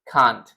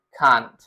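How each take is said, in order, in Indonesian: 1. Diucapkan dengan aksen Inggris. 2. Diucapkan dengan aksen Inggris.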